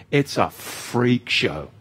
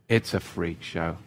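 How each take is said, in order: First: Slow, drawn-out scorn; slow freak show. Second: Softer, lower muttered repeat; soft aside. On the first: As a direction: drag out every word in disdain. Mocking the online crowd. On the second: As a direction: drop the voice and say it to yourself. Repeating the same jab. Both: Acted.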